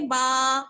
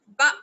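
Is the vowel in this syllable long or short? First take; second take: long; short. First: The vowel is drawn out long. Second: The vowel is short and clipped. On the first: The speaker calls it wrong. "खींच के नहीं पढ़ेंगे" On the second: The speaker calls it right. "बा हमजा जबर बा"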